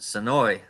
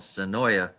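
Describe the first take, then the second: First: The name ends on an 'oy' sound. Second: The name ends with an added 'uh' syllable. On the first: This is how locals say it. "down here we pronounce it Sonoy" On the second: This follows the written spelling. "but it's spelled Sonoya"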